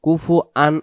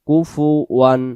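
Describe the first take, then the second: First: The ending is a separate an without w. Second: The ending is linked with a w sound. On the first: The speaker calls it wrong. "আন যেন উচ্চারিত না হয়" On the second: The speaker calls it right. "সূরাতুল ইখলাসের ওয়াও দুই জবর ওয়ান"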